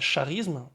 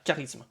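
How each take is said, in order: First: The word begins with a sh sound. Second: The word begins with a k sound. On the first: The speaker calls it wrong. "on ne prononce pas charisme" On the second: The speaker calls it right. "on dit K, donc le C H devient un K"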